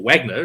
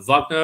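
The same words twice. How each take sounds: First: The name has a New Zealand pronunciation. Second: The name has a South African pronunciation.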